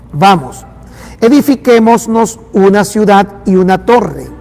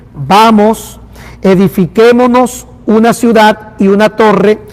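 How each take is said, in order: No difference in how they are said.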